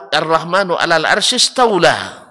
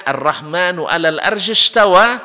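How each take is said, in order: First: "istawla" with an L slipped into the ending; high, loud verse ending on a wrong "-wla" in "istawla"; altered recitation. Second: "istawa" recited high and loud, ending in a clear "-wa"; correct recitation. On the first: Teacher warns against a new reading, "istawla" with an added L. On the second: Teacher shows listeners the true verse, "istawa" without an L. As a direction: end "istawa" on an open "-wa", with no L sound. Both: Shown as a demonstration. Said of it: "jangan dibaca qiraat baru".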